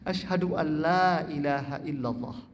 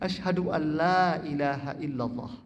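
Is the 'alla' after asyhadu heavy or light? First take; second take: light; light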